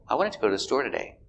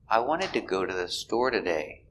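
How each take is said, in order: First: The sentence is said at normal speed. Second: The sentence is said slowly.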